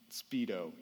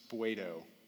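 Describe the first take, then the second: First: It sounds like the English word speedo. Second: It sounds different from the English word speedo. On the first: The speaker calls it wrong. "It's not speedo" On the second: The speaker calls it right. "it's spuedo in the Greek"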